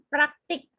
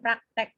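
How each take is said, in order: First: The second vowel is a clear 'i' sound. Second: The second vowel is an 'e' sound. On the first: This is the standard form. The speaker calls it right. "yang baku praktik" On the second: This is the habitual non-standard form. The speaker calls it wrong. "praktek itu sebenarnya tidak baku"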